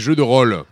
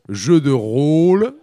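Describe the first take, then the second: First: The word rôle has a Southern French vowel. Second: The word rôle has a Parisian French vowel. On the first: The speaker calls it right. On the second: The speaker calls it wrong. "nous ne devons pas dire"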